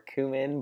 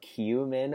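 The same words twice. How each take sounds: First: The first syllable has plain 'oo' without a glide. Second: The first syllable has a 'y' glide before 'oo'.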